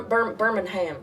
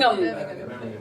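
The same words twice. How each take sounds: First: "Birmingham" with the ending "ham" said fully, as in ham; American Birmingham. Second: "Birmingham" with the end clipped to a short "um"; the English way, "Birmingham" ending "-um"; British Birmingham. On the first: Explaining to the British host how Alabamians say it, with "Birmingham" ending in a full "ham". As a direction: spell out "Bir-, Birmingham" the Alabama way. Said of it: "It's more like". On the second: The British host showing her way, "Birmingham" with a clipped "-um" ending. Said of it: "We don't say Birmingham". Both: Shown as a demonstration.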